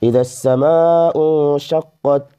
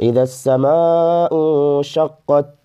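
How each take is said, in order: Both takes have the same delivery.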